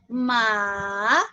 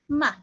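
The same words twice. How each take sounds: First: The pitch dips down and then rises. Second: The syllable is very light and quick. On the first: "The third tone is going down and up" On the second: "it sounds like a very light and very quick word"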